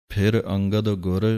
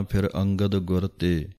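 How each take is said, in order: First: ਫਿਰ ਅੰਗਦ ਗੁਰ then a short stop before ਤੇ; pause after. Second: ਫਿਰ ਅੰਗਦ ਗੁਰ ਤੇ run together without a break; wrong, no pause. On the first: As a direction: rest briefly after ਗੁਰ. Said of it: "ਥੋੜ੍ਹਾ ਜਿਹਾ ਰੁਕਣਾ ਹੈ". (ਗੁਰ ਤੋਂ ਬਾਅਦ ਥੋੜ੍ਹਾ ਰੁਕੋ) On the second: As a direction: say it straight through with no pause. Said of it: "ਸਿੱਧਾ ਨਹੀਂ ਬੋਲ ਦੇਣਾ". (ਬਿਨਾਂ ਰੁਕੇ ਗਲਤ ਢੰਗ) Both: Shown as a demonstration.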